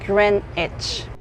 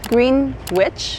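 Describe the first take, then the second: First: The parts are shortened and run together. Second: Each part is said in full as written. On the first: The speaker calls it right. "it's actually pronounced Greenwich" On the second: The speaker calls it wrong. "you will think it's Greenwich"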